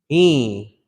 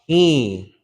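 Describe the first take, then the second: No difference in how they are said.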